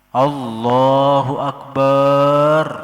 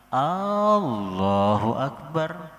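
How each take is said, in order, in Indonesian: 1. Vokal setelah b dipanjangkan. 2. Vokal pertama dari frasa itu dipanjangkan. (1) "tiada memanjangkan ba di kalimat akbar" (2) "a-nya jadi panjang"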